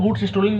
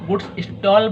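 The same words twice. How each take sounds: First: goods स्टोलन with a long o and an -en ending; 'stolen' pronunciation. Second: goods स्टॉल with one open 'aw' syllable; 'stall' pronunciation. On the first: Teacher showing students how some people say it, goods स्टोलन as 'sto-len'. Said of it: "कुछ लोग goods स्टोलन बोलते हैं". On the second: Teacher showing students another way people say it, goods स्टॉल as 'stawl'. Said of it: "कुछ लोग इसको goods स्टॉल बोलते हैं". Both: Shown as a demonstration.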